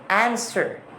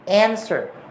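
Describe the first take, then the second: The two takes are said the same way.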